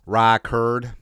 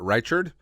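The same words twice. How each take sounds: First: It is said in a Southern accent. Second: It is said in a plain, non-Southern accent.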